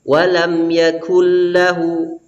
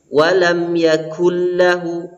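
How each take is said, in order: Both takes have the same delivery.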